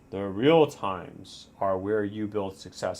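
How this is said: It is said in an Optimus Prime voice.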